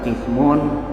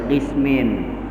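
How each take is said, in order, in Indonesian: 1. Kata ini berakhir dengan vokal u dan n. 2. Kata ini berakhir dengan vokal i dan n. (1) "boleh nih dibaca qismun" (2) "boleh dibaca qismin"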